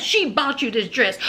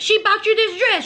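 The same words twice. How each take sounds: First: Said in the usual way. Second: Higher, louder, outraged repeat; a high, indignant "She bought you this dress."; indignant emphasis. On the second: Retold or imitated. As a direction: throw the words up high in disbelief. Mia repeats the accusation.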